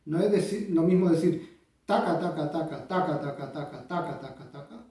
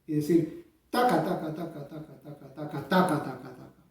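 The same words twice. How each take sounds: First: Every taca the same weight, fading out; even accents. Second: Taca stressed on the first of each group; grouped accents. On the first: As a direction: tap out taca taca evenly, no grouping. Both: Shown as a demonstration. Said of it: "Son cosas diferentes".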